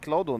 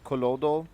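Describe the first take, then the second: First: The first two consonants form one cluster. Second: A vowel separates the first two consonants. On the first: The speaker calls it right. "actually Clodo" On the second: The speaker calls it wrong. "not Colodo"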